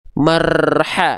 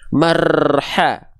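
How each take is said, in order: No difference in how they are said.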